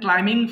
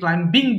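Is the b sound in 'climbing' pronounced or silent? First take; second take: silent; pronounced. First: The b sound is silent in the word. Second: The b sound is pronounced in the word. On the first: The speaker calls it right. "বি এর উচ্চারণটা হবে না হ্যাঁ so এটা হবে simply ক্লাইম্বিং" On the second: The speaker calls it wrong. "আমি ভুল করেছি ক্লাইম্বিং বলে ফেলেছি"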